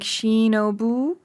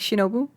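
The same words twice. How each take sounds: First: A sound in the name is drawn out longer. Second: The name is said short and compact.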